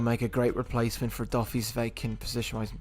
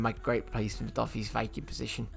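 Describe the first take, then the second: First: It is said in the speaker's usual accent. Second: It is said in a London accent.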